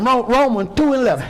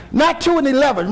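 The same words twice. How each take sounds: First: "Romans two eleven" said without "and"; right reading. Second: "two and eleven" with an added "and"; wrong reading. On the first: Preacher correcting the verse to "Romans two eleven". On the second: Preacher quoting the wrong verse reading. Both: Shown as a demonstration.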